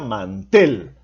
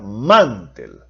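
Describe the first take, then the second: First: The stress is on the last syllable. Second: The stress is on the first syllable. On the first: The speaker calls it right. "se pronuncia mantel. Por lo tanto, en la última sílaba lleva la mayor fuerza de voz" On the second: The speaker calls it wrong. "¿es correcto pronunciar mantel o es correcto pronunciar mantel?"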